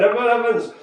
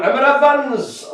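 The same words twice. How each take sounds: First: A quicker, lighter Welsh lilt on Emma Evans; light Welsh accent. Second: Put-on Emma Evans in a slow, sing-song higher Welsh accent. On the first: Pretend. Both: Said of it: "I have to say Emma Evans in a Welsh accent".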